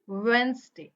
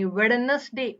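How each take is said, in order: First: The d sound is silent in the middle. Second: The d sound is pronounced in the middle. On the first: The speaker calls it right. "वेन्सडे म्हणायचं" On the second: The speaker calls it wrong. "वेडनेसडे नाही"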